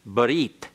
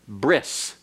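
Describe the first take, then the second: First: The word ends in a t sound. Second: The word ends in an s sound. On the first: "the Hebrew word for covenant is barit" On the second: "modern Hebrew uh, pronunciation is bris"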